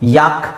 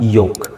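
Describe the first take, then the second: First: The vowel sounds like a long 'ah'. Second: The vowel sounds like an 'oh'. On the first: The speaker calls it wrong. "ಯಾಕ್ ಅಲ್ಲ" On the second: The speaker calls it right. "ಇಲ್ಲಿ ಓ ಇದೆ ಅದಕ್ಕಾಗಿ ಯೋಕ್ ಅಂತ ಹೇಳ್ತೀವಿ"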